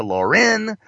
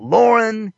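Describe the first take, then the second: First: "Lauren" with a lifted, stressed ending; Lauren, stressed second syllable. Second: "Lauren" with the weight up front; Lauren, stressed first syllable. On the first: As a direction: say "Lauren" as lor-EN. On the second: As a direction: say "Lauren" as LOR-en. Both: Acted. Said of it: "not Lauren".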